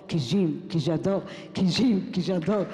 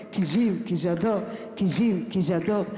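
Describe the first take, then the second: No difference in how they are said.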